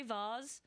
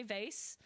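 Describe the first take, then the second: First: "vase" with a long ah vowel, vahz. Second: "vase" with an ay sound, vayce. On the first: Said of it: "Sometimes I say vase". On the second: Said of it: "sometimes I say vase". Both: Shown as a demonstration.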